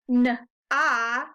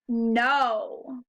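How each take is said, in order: First: The vowel is a short open 'ah' sound. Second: The vowel is a long 'oh' sound. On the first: The speaker calls it wrong. "so it's not n-ah" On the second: The speaker calls it right. "The O says its name"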